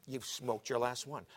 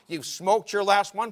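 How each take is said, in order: First: Slow, level declaration; measured pronouncement. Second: Slow, high, very loud declaration; forceful pronouncement. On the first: God telling Paul to give up smoking, slow and measured. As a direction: state it slowly at ordinary volume. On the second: God repeating the verdict to Paul, slow and loud. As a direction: thunder it out slowly. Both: Retold or imitated.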